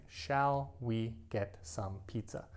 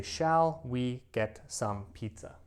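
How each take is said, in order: First: Slow, careful textbook phrasing; slow formal suggestion. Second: Slow, deliberate textbook phrasing; overly formal slow question; slow formal suggestion. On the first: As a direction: stretch the question out formally. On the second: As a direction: say it slowly like a model sentence. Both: Shown as a demonstration. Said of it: "Now, I never speak like this".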